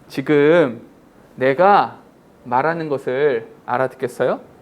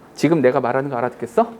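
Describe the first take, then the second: First: It is said with normal pauses between words. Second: It is said with the pauses between words removed.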